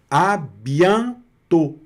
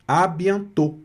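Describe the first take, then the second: First: Slow, higher "à bientôt", split into syllables. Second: Said in the usual way. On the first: Shown as a demonstration. Teacher assembles the word for students, "à bientôt" slowly syllable by syllable. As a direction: stretch "à bientôt" with a long nasal an. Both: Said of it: "que você vai pronunciar".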